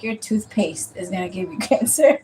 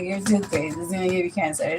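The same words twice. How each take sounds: First: Quoting the aunt through a laugh; aunt's line with a laugh slipping in; aunt's warning, laughing. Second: Low, soft deadpan warning; flat dead-serious delivery, a touch quieter; aunt staring straight at her, deadly serious. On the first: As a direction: chuckle on the word cancer. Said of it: "my aunt was like". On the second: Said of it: "looked me dead in the eye". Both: Retold or imitated.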